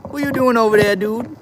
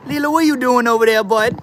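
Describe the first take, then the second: First: Very high cooing call to the pet; pet talk. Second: Very high, sing-song call to the pet; pet talk. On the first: Streamer asks his pet what it's up to, high cooing. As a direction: coo the question up at the pet. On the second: Streamer calls over to his pet Lila, high cooing voice. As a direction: coo at the pet from across the room. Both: Real, not acted.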